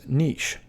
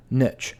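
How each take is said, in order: First: Niche said neesh; common mispronunciation. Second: Niche said nitch; correct pronunciation. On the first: Teacher showing viewers the wrong way. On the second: Teacher showing viewers the right way. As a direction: say niche rhyming with itch. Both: Shown as a demonstration. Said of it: "often mispronounced as niche".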